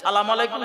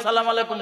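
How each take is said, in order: Both takes have the same delivery.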